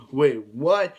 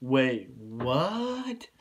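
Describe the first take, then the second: First: Louder, shocked wait what; a bigger, louder gasp of surprise; more shocked. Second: Said in the usual way. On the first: Shown as a demonstration. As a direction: hit it with real surprise, louder. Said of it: "I'll say it with more, you know". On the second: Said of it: "I'll say it with more".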